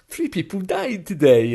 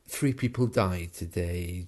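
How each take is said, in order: First: It is said in a light, unconcerned tone. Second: It is said in a concerned, serious tone. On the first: The speaker calls it wrong. "it would be a little bit unusual" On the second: The speaker calls it right. "you can hear there that there's a, a kind of concern"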